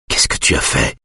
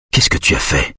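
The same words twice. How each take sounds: First: Low, hushed man's question; speaking through fingers. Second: Low, hushed man's question; half-voice. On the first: Husband questions wife through his fingers, low and hushed. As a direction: sink the pitch, half-covered mouth. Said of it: "parle entre les doigts". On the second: Husband questions wife in hospital, low half-voice. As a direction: ask it under the voice, lower. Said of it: "demande-t-il à mi-voix". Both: A narrator's reading.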